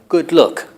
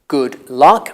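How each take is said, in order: First: Luck has the rounded vowel of book. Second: Luck has the open vowel of cup. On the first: "if you come from Northern England, you say something like good look" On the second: "I use uh for good and uh for luck"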